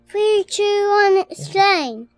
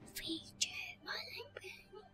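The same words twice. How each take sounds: First: It is shouted loudly. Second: It is said quietly.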